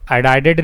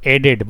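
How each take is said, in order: First: The word is said with three syllables. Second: The word is said with two syllables. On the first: The speaker calls it wrong. "एडाइडेड नहीं" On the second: The speaker calls it right. "एडेड बोलो"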